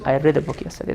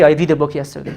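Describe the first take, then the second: First: The word read has a short e vowel. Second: The word read has a long ee vowel. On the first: The speaker calls it right. "The sound changes" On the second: The speaker calls it wrong. "Don't say"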